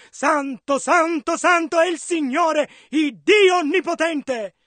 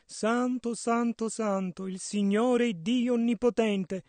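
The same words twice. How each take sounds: First: Crying out in measured proclamation; mild cry. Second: Soft, lowered, gentle murmur; very delicate. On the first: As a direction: proclaim it as the seraphim's cry, restrained. (grido contenuto, proclamato) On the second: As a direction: say it softly and delicately. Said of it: "devono averlo detto molto delicatamente". (molto delicatamente, a bassa voce) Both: Acted.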